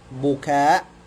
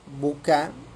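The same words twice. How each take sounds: First: The final vowel is long, ending in a glottal stop. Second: The final vowel is short, with no glottal stop. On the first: It means raising the voice in wailing. "Kalau dia ditambahkan hamzah" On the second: It means tears. "bil qasri"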